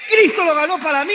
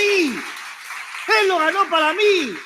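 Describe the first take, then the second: First: Said in the usual way. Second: Slow, drawn out. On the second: Acted. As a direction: stretch every word slowly. Repeats phrase, second drawn out. (despacio, alargando cada palabra)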